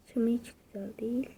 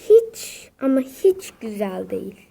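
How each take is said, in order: First: Fast, voiceless whisper of Hiç ama hiç güzel değil. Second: Said in the usual way. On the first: Shown as a demonstration. Gamer muttering the complaint again to himself, fast whisper. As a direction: rush it out as a breathy whisper. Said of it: "repeat of the line just said". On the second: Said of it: "repeats the line in a whisper".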